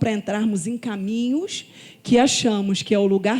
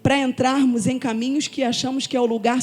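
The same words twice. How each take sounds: First: The phrase is spoken slowly and deliberately. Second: The phrase is spoken at a normal pace.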